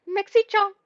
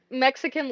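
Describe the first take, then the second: First: High-pitched mock Japanese accent. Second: Said in the usual way. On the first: Shown as a demonstration. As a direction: read it in a higher, put-on Japanese accent. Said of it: "like, a Japanese accent". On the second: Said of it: "I know it's, like, Mexican leprechaun".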